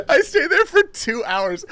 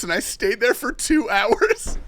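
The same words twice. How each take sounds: First: Much higher, slow, whiny half-sob; mock crying. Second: High, slow, laughing through the words; can't hold back the laugh. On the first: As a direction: wail it like a hammed-up cry. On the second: Real, not acted.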